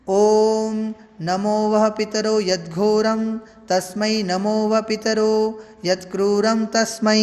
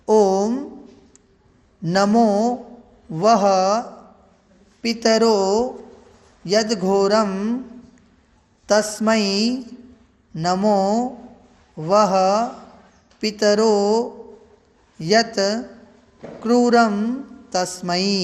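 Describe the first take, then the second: First: It is recited in one continuous, even flow. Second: It is recited slowly, broken into separate parts. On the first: "यहाँ पर ये एक स्वर में हमने मंत्र का उच्चारण किया" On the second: "इसे शनै शनै धीरे धीरे इसको बोल करके"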